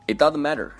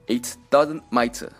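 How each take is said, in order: First: The t in matter is a soft flap. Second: The t in matter is crisp and released.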